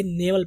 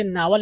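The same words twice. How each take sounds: First: "नेवल" with 'ay' in the first syllable; सही उच्चारण. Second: "नावल" read as spelt, with 'aa'; लिखे जैसा उच्चारण. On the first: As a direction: say "नेवल" as NAY-vul. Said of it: "ये नेवल पढ़ा जाएगा". ("नेवल" का सही उच्चारण, 'ने' से) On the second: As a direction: say "नावल" as NAA-val. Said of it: "गर्चे नावल लिखा है". ("नावल" लिखे अनुसार, 'ना' से) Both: Shown as a demonstration.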